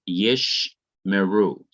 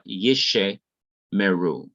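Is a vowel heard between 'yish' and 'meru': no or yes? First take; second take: no; yes. First: No vowel is sounded between yish and meru. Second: A short vowel is sounded between yish and meru. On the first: The speaker calls it right. "the first schwa is not to be pronounced" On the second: The speaker calls it wrong. "not yishe meru"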